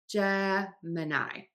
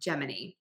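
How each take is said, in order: First: The ending does not sound like 'mini'. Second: The ending sounds like the word 'mini'. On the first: The speaker calls it right. "it's actually Gemini" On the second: The speaker calls it wrong. "because the word mini is in there"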